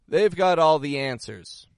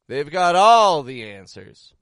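First: The tone is sincere and serious. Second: The tone is sarcastic and mocking. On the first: The speaker truly believes they know everything. "Serious. Sincere" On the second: The speaker does not trust them and means the opposite. "Sarcastic. I don't trust them"

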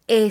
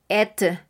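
First: Only the vowel is pronounced, no consonants. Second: Only the final t is pronounced. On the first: The speaker calls it right. "Estaremos diciendo E solamente" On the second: The speaker calls it wrong. "no vamos a decir tampoco et"

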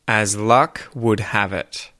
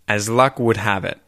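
First: The phrase is said at a slower, careful pace. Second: The phrase is said at a fast pace.

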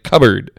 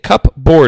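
First: The second part is reduced to a weak syllable. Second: Both parts are said in full, as spelled. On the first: This is how it is actually said. "but it's like cupboard" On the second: This follows the spelling. "Cupboard is how it's spelled"

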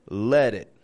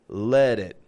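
Both takes have the same delivery.

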